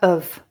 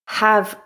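First: The word begins without any h sound. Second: The word begins with a clear h sound. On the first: "the weak form with the h sound dropped" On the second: "I'll read the full form"

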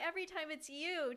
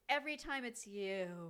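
First: It sounds warm and fond. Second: It sounds weary and exasperated. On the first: The person is a welcome, romantic constant. "started out saying... sweet and romantic and lovely" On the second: The person is someone one cannot escape. "just like that relationship you just can't get away from"

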